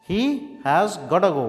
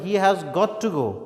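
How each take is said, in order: First: 'Got to' is blended quickly into 'gotta'. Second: 'Got to' is said as two separate words.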